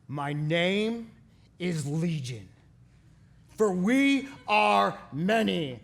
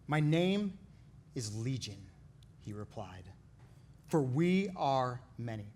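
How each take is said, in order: First: It is acted out in a dramatic voice. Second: It is read in a plain narrating voice.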